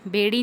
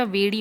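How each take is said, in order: First: बेड़ी starting with lip-closed b; wrong pronunciation. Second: वेड़ी starting with v, not b; correct pronunciation. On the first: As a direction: say बेड़ी as beṛi. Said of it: "बेड़ी नहीं होता". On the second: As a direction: say वेड़ी as veṛi. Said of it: "वेड़ी होता है". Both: Shown as a demonstration.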